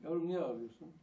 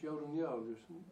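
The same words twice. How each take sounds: First: Mother calling out high and loud, at her wits' end; a fed-up mother raising her voice; pleading loud call to a crying child; exasperated mother. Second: Mother asking. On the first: Mother asks, losing patience. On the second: Mother asks crying child. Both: Retold or imitated.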